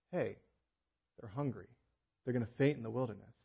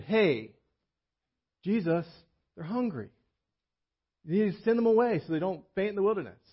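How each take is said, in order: First: Compassionate Jesus. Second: Worried disciples. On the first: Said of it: "It's Jesus says". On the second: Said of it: "The disciples came up and said". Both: Retold or imitated.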